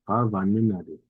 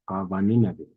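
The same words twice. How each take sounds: The two takes are said the same way.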